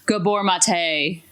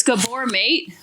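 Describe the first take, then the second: First: Gabor Mate said as GAH-bor mah-TAY, stress on the final TAY; accented name. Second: Said in the usual way. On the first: Shown as a demonstration. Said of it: "but he has an accent, so it's probably like". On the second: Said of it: "but he has an accent".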